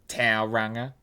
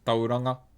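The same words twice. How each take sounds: First: It is said with an anglicized English pronunciation. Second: It is said with the native Māori pronunciation. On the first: The speaker calls it wrong. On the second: The speaker calls it right. "It's pronounced Tauranga"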